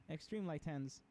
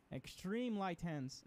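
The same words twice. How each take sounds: First: Said in the usual way. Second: Slow, drawn-out stress on Extreme; coaching emphasis. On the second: Shown as a demonstration. Coach drilling a driver on the steering, slow and emphatic. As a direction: lean into Extreme, stretching each word.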